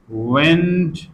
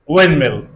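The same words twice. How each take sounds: First: The d sound is clearly pronounced. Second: The d sound is left out. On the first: "We've got the between two consonants" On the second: "We elide the, and what remains?"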